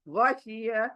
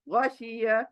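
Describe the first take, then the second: No difference in how they are said.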